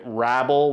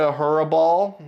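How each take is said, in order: First: The name begins directly with an R sound. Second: The name begins with an H sound. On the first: "the announcers pronounce it" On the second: "I'll keep calling him Hurraball"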